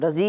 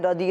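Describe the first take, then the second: First: The middle consonant sounds like a z. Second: The middle consonant sounds like a heavy d. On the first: The speaker calls it wrong. "رضی نہیں ہوتا" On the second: The speaker calls it right. "دود ہوتا ہے، تو ہم نے بولنا ہے رضی اللہ عنہ"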